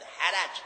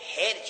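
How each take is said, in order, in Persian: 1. هر دو هجا مصوت 'a' دارند: haraj. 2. فقط یک مصوت هست، یک 'i' بعد از اولین صامت: hirj. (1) "محرکتن" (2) "بلکست"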